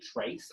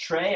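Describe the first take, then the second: First: The word ends with a clear S sound. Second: The word ends without an S sound. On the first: The speaker calls it wrong. "it doesn't sound like a Latin word to me" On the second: The speaker calls it right. "so I like leave off the S"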